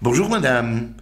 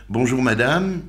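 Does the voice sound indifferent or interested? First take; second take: interested; indifferent. First: The tone sounds warm and interested. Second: The tone sounds flat and indifferent. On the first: The speaker cares about the other person. The speaker calls it right. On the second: The speaker does not care about the other person. The speaker calls it wrong.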